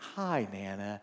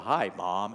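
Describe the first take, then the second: First: It is said in a sweet, sugary voice. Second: It is said in a deep, manly voice.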